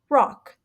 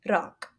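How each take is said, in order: First: The r is a smooth American sound. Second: The r is a quick tongue tap. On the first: "In S A E, we would say rock" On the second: "she would most likely pronounce it rock, rock. That is when your tongue, you can hear it audibly tapping"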